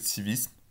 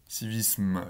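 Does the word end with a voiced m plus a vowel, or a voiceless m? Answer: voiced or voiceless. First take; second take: voiceless; voiced. First: It ends with a voiceless m and no vowel. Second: It ends with a voiced m and a short schwa. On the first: "c'est un me sourd" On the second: "si vous prononcez le schwa à la fin, que vous faites civisme, civisme, là le me est sonore"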